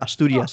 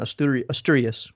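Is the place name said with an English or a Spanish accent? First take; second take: Spanish; English. First: It is said with a Spanish accent. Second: It is said with an English accent.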